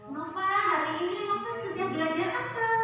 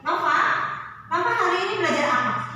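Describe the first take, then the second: First: It is spoken softly and gently. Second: It is spoken harshly, not gently.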